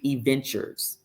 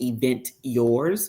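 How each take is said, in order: First: It is said as one blended word. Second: It is said as two separate words. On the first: The speaker calls it right. "it's actually Eventures" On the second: The speaker calls it wrong. "You don't pronounce it Event Yours"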